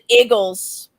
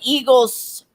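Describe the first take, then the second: First: It is said in a local Philadelphia accent. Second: It is said in a standard American accent.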